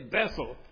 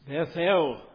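First: The two syllables run together quickly. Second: Each syllable is stressed and said separately. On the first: "or as we often say" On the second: "Sometimes we should emphasize the syllables"

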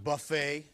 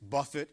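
First: The word ends with an 'ay' sound. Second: The word ends with a short 'it' sound. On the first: A self-service meal. The speaker calls it wrong. "It's not buffet. That's very different" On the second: To strike or batter repeatedly. The speaker calls it right. "that is the right pronunciation. It's buffet"

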